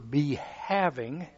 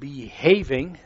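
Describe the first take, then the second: First: It is split into two parts, be and having. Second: It is said as one ordinary word. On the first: Being possessed or held by the Spirit. The speaker calls it right. "Just the pronunciation and changes the definition" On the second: Acting properly by following rules. The speaker calls it wrong. "We're not behaving"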